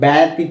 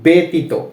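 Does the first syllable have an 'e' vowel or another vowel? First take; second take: another vowel; e vowel. First: The first syllable does not have an 'e' vowel. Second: The first syllable has an 'e' vowel. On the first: The speaker calls it wrong. "আমরা কিন্তু ব্যতীত এভাবে পড়ছি না" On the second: The speaker calls it right. "এর মতো উচ্চারণ হবে এ"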